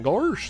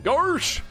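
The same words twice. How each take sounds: First: It is said in a lower, emphatic voice. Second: It is said in a higher voice.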